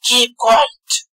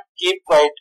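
First: It is said in an angry tone. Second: It is said plainly and calmly.

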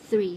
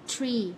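First: The th is made with tongue between teeth. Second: The th is made without tongue between teeth. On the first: The speaker calls it right. "ลิ้นเราต้องวางไว้ตรงระหว่างฟันนะ พ่นลมออกมานะ" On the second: The speaker calls it wrong. "ผิด"

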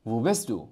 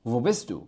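Both takes have the same delivery.

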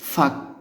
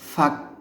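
The two takes are said the same way.

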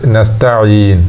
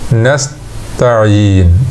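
First: The word is said smoothly without any internal break. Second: A slight pause separates the s and t sounds. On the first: The speaker calls it right. "ينطق بجميع حروفها متوالية بدون وقفة بين الحروف" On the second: The speaker calls it wrong. "لو وقف وقفة يسيرة لطيفة ونطق نستعين هكذا"

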